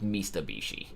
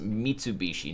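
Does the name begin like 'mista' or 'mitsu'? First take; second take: mista; mitsu. First: The name begins with a 'mista' sound. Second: The name begins with a 'mitsu' sound. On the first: The speaker calls it wrong. "not Mistabishi" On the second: The speaker calls it right. "the brand name is pronounced Mitsubishi"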